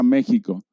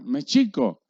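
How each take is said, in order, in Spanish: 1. El acento cae en la primera sílaba. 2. El acento cae en la segunda sílaba.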